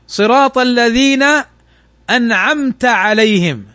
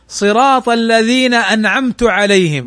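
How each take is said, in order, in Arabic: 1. الحركات توافق التلاوة على الأصل. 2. تغيّرت حركة عن التلاوة على الأصل.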